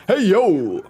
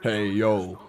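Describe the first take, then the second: First: Loud, high Razor Ramon greeting; terrible impression. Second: Low, gruff-voiced Razor Ramon try; Razor Ramon impression. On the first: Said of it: "that's a terrible impression". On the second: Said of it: "Just a little Razor Ramon for ya".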